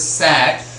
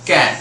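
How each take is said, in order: First: The word begins with an s sound. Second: The word begins with a k sound. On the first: The speaker calls it wrong. "We are not pronouncing it as sat" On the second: The speaker calls it right. "it is cat"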